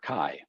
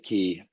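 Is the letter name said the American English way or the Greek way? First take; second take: American English; Greek. First: It is said with the American English pronunciation. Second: It is said with the original Greek pronunciation. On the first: "English American pronunciation"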